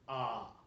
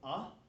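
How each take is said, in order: First: The vowel is long. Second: The vowel is short. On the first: It is the ablative singular ending. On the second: It is the nominative singular ending.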